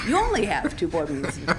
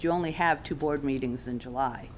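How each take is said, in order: First: It sounds pleased, as if good news. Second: It sounds regretful, as if too few.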